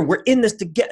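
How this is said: It is said with contempt.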